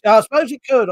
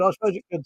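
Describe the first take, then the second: First: Higher and louder, emphatic. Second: Said in the usual way. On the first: Real, not acted. Repeated phrase, first take.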